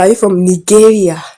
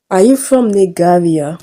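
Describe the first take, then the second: First: "Nigeria" with a hard g, as nee-GEH-ria; common mispronunciation. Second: "Nigeria" mangled with a hard g, like nee-GAH-via; mispronounced country name. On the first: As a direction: imitate people saying "Nigeria" as nee-GAIR-ia. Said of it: "Most of the time people say". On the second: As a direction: imitate a kid garbling "Nigeria" as nih-GAH-via. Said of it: "he mispronounced my country so badly". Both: Retold or imitated.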